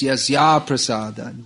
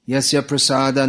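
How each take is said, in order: First: The vowel joining the two words is long. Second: The vowel joining the two words is short. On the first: Without the guru's mercy there is no hope. The speaker calls it right. "The correct pronunciation is" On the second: By the guru's mercy there is no hope. The speaker calls it wrong. "I hear devotees singing"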